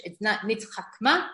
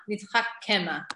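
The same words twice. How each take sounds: First: Nitchakma with no vowel after ch; the wrong nitchakma, clipped. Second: Nitchakema with an e after the k; right nitchakema. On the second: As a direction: say nitchakema, four syllables. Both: Shown as a demonstration.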